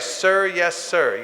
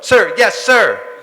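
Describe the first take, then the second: First: It is said calmly in an ordinary voice. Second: It is barked out loudly and sharply. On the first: The speaker calls it wrong. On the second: The speaker calls it right.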